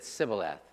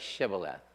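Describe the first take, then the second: First: The word begins with an s sound. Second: The word begins with an sh sound. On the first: "they pronounce it Sibboleth" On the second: "let me hear you say Shibboleth"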